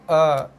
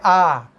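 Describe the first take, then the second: First: The vowel is produced deep in the throat. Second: The vowel is produced at the front of the mouth. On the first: The speaker calls it right. "Tapi A / keluar daripada bunyi bawah" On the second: The speaker calls it wrong. "Bukannya A. / bukannya bunyinya keluar daripada depan"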